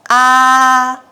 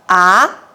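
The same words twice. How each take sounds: First: The pitch stays high and level throughout. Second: The pitch starts mid and rises to high. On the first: "The first tone keeps at the highest light from the start to the end" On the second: "The second tone starts from the middle and goes up to the highest light"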